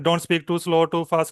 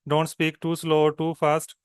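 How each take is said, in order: First: It is spoken at a very fast pace. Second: It is spoken at a natural, moderate pace. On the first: The speaker calls it wrong. "It's टू fast" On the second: The speaker calls it right. "This way"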